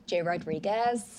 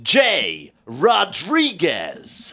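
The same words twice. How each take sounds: First: Soft, understated American accent; low-key American, slowed a little and softly lifted at the end. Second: Long, drawn-out slow announcer call. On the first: Guest answering host in accent duel, soft American. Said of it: "so I would go". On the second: Host duelling guest in American accents, booming slow announcer. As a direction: stretch each word like a movie voiceover. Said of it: "we're gonna announce them". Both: Shown as a demonstration.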